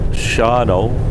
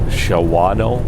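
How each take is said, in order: First: The name is said with the middle syllable dropped. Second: The name is read with the middle syllable pronounced. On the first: This is how locals say it. "they pronounce it Shano" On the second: This is how the spelling looks. "See how that's written?"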